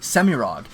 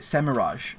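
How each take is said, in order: First: The name ends with a hard G sound. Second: The name ends with a soft J sound. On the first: This sounds more demonic. "the simple aesthetic of that hard G" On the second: This is the pronunciation used for years. "the way I pronounced it Semiraj for for my whole life"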